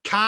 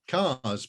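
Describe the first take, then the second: First: "Cars" stressed very weirdly; odd stress on cars. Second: Said in the usual way. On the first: Acted. Wizard puzzling over the word "Cars", stressing it weirdly. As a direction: lean oddly on "Cars". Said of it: "stressing the word very weirdly indeed".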